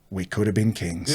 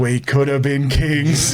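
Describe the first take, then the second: First: Low, soft retold aside; hushed regret for lost glory; quiet wistful regret. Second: Slow, stretched-out punchline repeat; slow, hammed-up wistfulness; drawn-out mock lament. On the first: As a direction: say it low, as a private lament. Cousin's regretful aside, lounging later. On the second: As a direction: draw it out for comic regret. Repeats cousin's line for comic effect.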